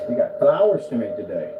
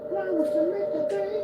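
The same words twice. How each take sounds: First: Said in the usual way. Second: Much higher, squeaky singsong repeat; high silly voice. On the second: Pretend. Repeating the line to the cat, high silly voice. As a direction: parrot the line in a cartoon squeak. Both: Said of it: "repeats it in put-on voice".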